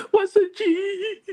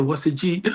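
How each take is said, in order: First: High, very slow drawn-out "What's a G?"; baffled repeat. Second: Said in the usual way. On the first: Retold or imitated. Son repeating mom's odd question, high slow bafflement. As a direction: stretch it out in total bewilderment. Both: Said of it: "I said".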